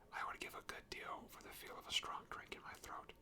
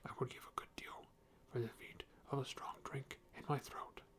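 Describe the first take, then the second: First: It is read in the reader's normal voice. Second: It is read in a put-on character voice. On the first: "I'm just going to go back to normal" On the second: "I don't know what voice I'm doing for Bomber"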